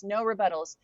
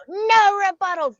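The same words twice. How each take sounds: First: Said in the usual way. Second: Mock scream, much higher and louder; hammed-up yell cutting her off; group scream. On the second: Girls in the circle silencing the new girl, mock group scream. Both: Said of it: "the whole group would just scream it all at once".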